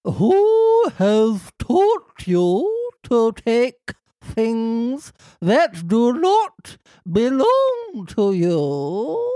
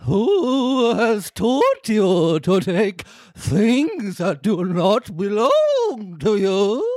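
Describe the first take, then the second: First: Ghostly warble through the line; warbling ghost voice. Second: A touch spookier, more ghostly; slightly spookier. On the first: Fairy asking who taught the boy to steal, warbling. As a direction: let the voice waver like a ghost. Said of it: "keep the warble in there". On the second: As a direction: give the line a little more ghost. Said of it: "so slightly spookier". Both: Acted.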